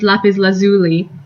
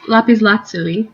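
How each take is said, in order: First: It is pronounced the common English way. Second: It is pronounced the Italian way. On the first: The speaker calls it wrong. "many people say that the stone is lapis lazuli" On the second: The speaker calls it right. "in Italian it's it's lapis lazuli"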